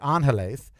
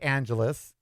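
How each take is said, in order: First: It is pronounced with a Spanish-style sound. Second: It is pronounced with an English-style sound. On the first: The speaker calls it right. "if you're just so stupid you can't say Angeles" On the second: The speaker calls it wrong. "if you must say Angeles"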